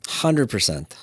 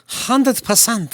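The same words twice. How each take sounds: First: Said in the usual way. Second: High, slow, stretched-out emphasis; emphatic high drawl. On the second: Acted. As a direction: draw it out way up high for effect. Repeats it drawn out, high.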